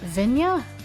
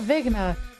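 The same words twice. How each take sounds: First: It is said with an Italian-style pronunciation. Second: It is said with an English-style pronunciation. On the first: "pronounce it like Italian" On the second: "that's gonna bring on so many Ligma jokes"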